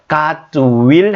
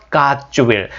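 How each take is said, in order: First: "God will" as two separate words; words kept separate. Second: "God will" merged, like "gat-chu-will"; words run together. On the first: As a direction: say "God" and "will" apart, with a full w in "will". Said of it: "God will 하지 마죠". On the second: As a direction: link "God" straight into "will" as one word. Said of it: "God와 will을 합쳐서". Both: Shown as a demonstration.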